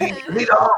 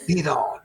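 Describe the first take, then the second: First: Raised, voiced call to move; urging onward. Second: Voiceless whisper to move on; whispered urging. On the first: Blindfolded follower urging his guide, raised call. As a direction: urge the leader forward, a little loud and high. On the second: Acted. Blindfolded follower urging his guide, whispered. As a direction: urge them forward under your breath.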